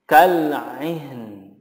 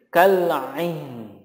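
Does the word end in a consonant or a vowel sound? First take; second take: consonant; consonant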